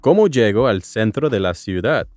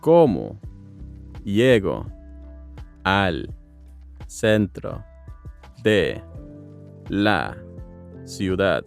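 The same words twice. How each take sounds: First: It is said at normal speed. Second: It is said slowly.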